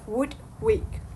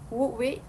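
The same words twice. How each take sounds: First: The final d of would is pronounced. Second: The final d of would is dropped. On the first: "instead of would wake" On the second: "the final D was elided"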